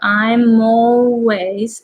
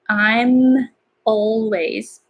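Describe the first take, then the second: First: The words are said with sounds joined together. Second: The words are said with separated sounds. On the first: The speaker calls it right. "it's better to connect all the sound" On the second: The speaker calls it wrong. "So you can say I'm always"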